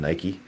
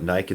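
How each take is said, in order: First: The word ends with a final 'ee' vowel. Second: The word ends without a final 'ee' vowel. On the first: This is how the asker expects the name to be said. "instead of Nike" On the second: This is how English people say the name. "Do all English people call it Nike"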